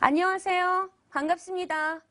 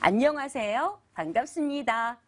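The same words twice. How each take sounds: First: It is said in a straight, flat way. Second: It is said in a warm, rounded way.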